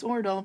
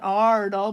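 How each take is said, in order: First: The first vowel sounds like 'oh'. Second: The first vowel sounds like 'ah'. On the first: The speaker calls it right. "but it's Ordal ... which pronounced O, like in boat" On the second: The speaker calls it wrong. "It's not Ardal"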